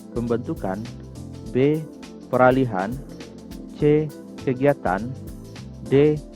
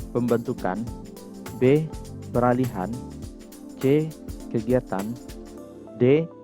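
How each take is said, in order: Both takes have the same delivery.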